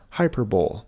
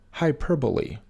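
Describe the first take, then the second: First: Hyperbole said HY-per-bowl; common mispronunciation. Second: Hyperbole said hy-PER-bo-lee, four syllables; correct pronunciation. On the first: Teacher showing viewers the wrong way. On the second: Teacher showing viewers the right way. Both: Shown as a demonstration. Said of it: "often mispronounced as hyperbole".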